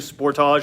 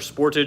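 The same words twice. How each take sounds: First: The name is said the Canadian way. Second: The name is said the American way.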